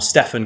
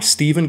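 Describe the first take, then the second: First: The name is said with an f sound. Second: The name is said with a v sound. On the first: "depending on how you want to pronounce it" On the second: "depending on how you want to pronounce it"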